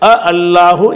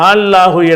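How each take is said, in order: First: Two separate short vowels are heard at the start. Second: One merged, lengthened vowel is heard at the start. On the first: The speaker calls it wrong. "அப்படி சொல்லாமல்" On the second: The speaker calls it right. "ரெண்டையும் சேர்த்து இணைச்சி நீட்டி விட்டுருவாங்க"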